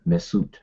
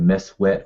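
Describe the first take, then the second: First: The word is said smoothly as one unit. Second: The word is split into two separate parts. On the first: "They just say mes, Mesut" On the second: "some people may break that up and say Mes wet"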